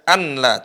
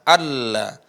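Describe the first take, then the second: First: The n sound is clearly heard before the l. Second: The n sound merges into a doubled l. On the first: "seharusnya dibaca anla" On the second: "suara nunnya melebur ya, atau hilang"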